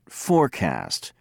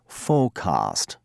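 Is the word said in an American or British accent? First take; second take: American; British. First: American accent, with the r sounded. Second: British accent, with the r dropped. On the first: "the American speaker said forecast" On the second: "the British said forecast"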